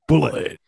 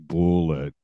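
First: The word is said quickly and clipped. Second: The word is said slowly and drawn out. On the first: The speaker calls it right. "You say that fast, right?" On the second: The speaker calls it wrong. "You can't be like"

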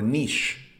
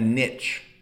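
First: The word is said with a French accent. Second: The word is said in a plain English accent.

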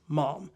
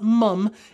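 First: The vowel sounds like 'ah', as in 'mom'. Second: The vowel sounds like 'uh', as in 'mum'. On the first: The speaker calls it right. "it's mom" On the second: The speaker calls it wrong. "people in the UK are just saying it wrong. It's not mum"

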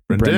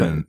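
First: The stress is on the second syllable. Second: The stress is on the first syllable. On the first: "I can do an iambic pentameter of your name. Like" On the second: "It's the most natural way to say your name"

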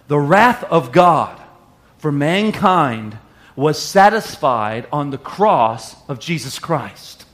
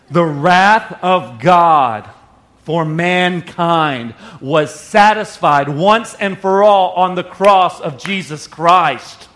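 First: It is said at a normal pace. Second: It is said slowly and deliberately.

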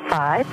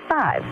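First: The pitch stays level on the word. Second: The pitch drops down on the word. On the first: More digits follow in the number. "a neutral inflection would be 5" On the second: It is the last digit of the number. "and a falling inflection, obviously, 5"

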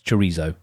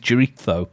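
First: The word is said with an English pronunciation. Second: The word is said with a Spanish pronunciation. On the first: "it's chorizo" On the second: "Unless I'm going to go full Spanish, in which case, of course, it is chorizo"

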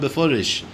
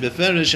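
First: The second vowel sounds like 'o'. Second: The second vowel sounds like 'e'. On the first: The speaker calls it right. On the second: The speaker calls it wrong.

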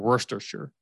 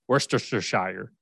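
First: It is said short, with syllables run together. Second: Every written syllable is sounded out separately. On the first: The speaker calls it right. "Like the British English pronunciation" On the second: The speaker calls it wrong. "but it's spelled Worcestershire"

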